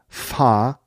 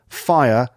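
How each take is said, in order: First: The vowel is flattened to one sound. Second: The vowel glides through three sounds.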